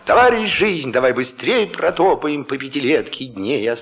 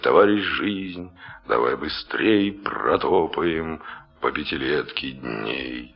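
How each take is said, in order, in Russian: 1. Читается смело, декламативно. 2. Читается устало, трагично, с усталостью. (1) "Разве можно Маяковского читать" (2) "усталый человек, многодумающий, трагическая личность"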